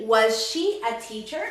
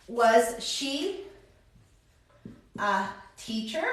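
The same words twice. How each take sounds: First: Said in the usual way. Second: Very slow, long pauses, softer; slow dictation. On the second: Shown as a demonstration. Teacher writes out the English question, slow and halting. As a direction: break it up softly, pausing before "a teacher".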